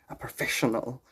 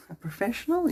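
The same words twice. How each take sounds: First: Said in the usual way. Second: "professional" lifted high as a question; questioning rise. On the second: Real, not acted. Speaker doubting own word, "professional" rising high into a question.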